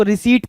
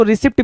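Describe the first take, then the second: First: रिसीट with silent p, "ri-SEET"; long-vowelled "ri-seet" for रिसीट; correct pronunciation. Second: रिसिप्ट with the p sounded, "ri-SIPT"; short-vowelled "ri-sipt" for रिसिप्ट; mistaken pronunciation. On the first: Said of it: "इसको रिसीट पढ़ते हैं". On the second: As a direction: say रिसिप्ट as written, short i and audible pt. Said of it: "इसको रिसिप्ट भी नहीं पढ़ते हैं". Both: Shown as a demonstration.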